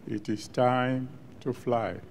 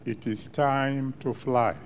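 The two takes are said the same way.

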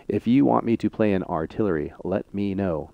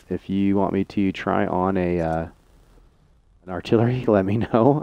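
First: Said in the usual way. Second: Can't keep a straight face, chuckling; stifled giggles while asking; laughing through words. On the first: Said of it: "There, I can speak English". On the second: Real, not acted. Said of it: "I can't even say it with a straight face".

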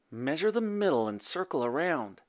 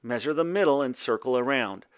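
First: Musing, slightly lifted voice; thinking to oneself. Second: Said in the usual way. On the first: A narrator's reading. Boy puzzling over the poem, musing to himself. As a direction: turn it over in your head. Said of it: "thought Radius".

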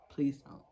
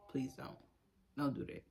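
First: Said in the usual way. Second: Much softer, almost under the breath; quiet pleading please don't. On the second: Real, not acted. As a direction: let it fade to a hush. Repeated pleading, fading.

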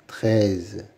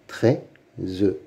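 First: Said in the usual way. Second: "Treize" as trei, pause, ze; syllable by syllable. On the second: Shown as a demonstration. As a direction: sound out "Treize" with the final e voiced. (« Treize » découpé en deux, e final prononcé) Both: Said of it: "Lis les mots".

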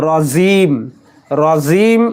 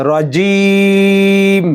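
First: রাজিম said quickly, jeem not crisp; wrong jeem. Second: রাজিম, crisp jeem and long held vowel; slow recited রাজিম, jeem pronounced fully; clear jeem. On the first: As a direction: careless রাজিম, jeem blurred. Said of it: "এরকম যেন না হয়ে যায়". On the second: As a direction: draw out রাজিম with a clean jeem. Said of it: "জিমের উচ্চারণ সুন্দরভাবে করতে হবে". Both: Shown as a demonstration.

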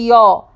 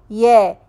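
First: Ya with a dark, "yaw"-like vowel; mistaken heavy vowel. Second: Ya as a light, fronted "yeh"; correct light vowel. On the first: Teacher shows students the error, heavy ya. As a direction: make ya too heavy. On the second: Teacher models it for students, light Ya. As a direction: keep the vowel in Ya thin and forward. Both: Shown as a demonstration. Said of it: "and don't say ya".

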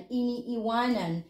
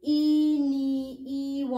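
First: Said in the usual way. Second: "iniiwanan" slow and higher, almost sung; drawn-out syllables. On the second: Shown as a demonstration. Teacher showing learners the present form, "iniiwanan" slowly drawn out. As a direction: stretch each syllable of "iniiwanan". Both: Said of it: "The present".

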